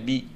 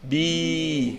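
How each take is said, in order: First: The vowel is short. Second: The vowel is long and prolonged. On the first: "avec la kasra, ça fait bi" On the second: "Et avec le ya, ça fait bi"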